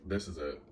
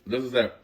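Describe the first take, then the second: First: Said in the usual way. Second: Higher and louder, bracing for it; loud resigned declaration. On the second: Retold or imitated. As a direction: announce the moment has come, loudly. Bracing for a shootout.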